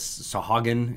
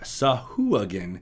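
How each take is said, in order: First: The middle syllable is a plain 'ha' sound. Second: The middle syllable has a 'hwa' sound. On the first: This is a guess made from reading. The speaker calls it wrong. "kind of how I sounded it out in my brain" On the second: This is the official pronunciation. The speaker calls it right. "is how the official pronunciation is"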